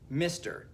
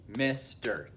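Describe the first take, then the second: First: Said in the usual way. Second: "Mister" broken into two separate beats; syllable by syllable. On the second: Shown as a demonstration. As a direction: split "Mister" as Mis, pause, ter. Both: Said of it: "two syllables".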